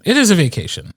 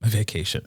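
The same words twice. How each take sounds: First: "is" punched high; stress on is. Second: Wry sarcastic. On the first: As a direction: insist on "is". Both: Real, not acted.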